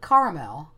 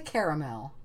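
First: The word is said with two syllables. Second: The word is said with three syllables. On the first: "as in I drive a car" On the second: "I don't say caramel"

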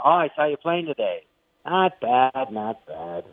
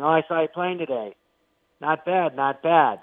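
First: The praise sounds grudging and reluctant. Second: The praise sounds plain and openly admiring. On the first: He hates admitting they are good. The speaker calls it right. "funnier if he, like, reluctantly admits it" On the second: He openly admits they are good. The speaker calls it wrong. "that's how you'd normally do it"

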